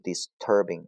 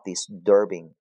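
First: The t after s sounds like a plain t. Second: The t after s sounds voiced, like d. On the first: The speaker calls it wrong. "不是disturbing 啊" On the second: The speaker calls it right. "浊化disturbing 啊"

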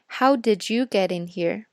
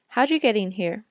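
First: Did is pronounced and linked with you. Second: Did is dropped, leaving only you. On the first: "学了连读，你可能会说" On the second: "外国人连did you 都不会发出来，他们会发you"

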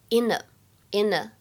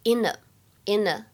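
First: The two words are linked together. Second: The same.

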